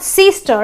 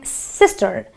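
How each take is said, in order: First: The first vowel is a long ee sound. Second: The first vowel is a short i sound. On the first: The speaker calls it wrong. "it's not sister" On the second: The speaker calls it right. "it is my sister"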